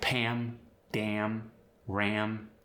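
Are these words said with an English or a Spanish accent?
English. The vowel is the native English am sound.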